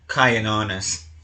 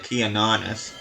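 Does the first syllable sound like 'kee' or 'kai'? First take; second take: kai; kee. First: The first syllable sounds like 'kai'. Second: The first syllable sounds like 'kee'. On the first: The speaker calls it right. "I think it's supposed to be Kyan, Kyanonis" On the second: The speaker calls it wrong. "it's not a Keanonis"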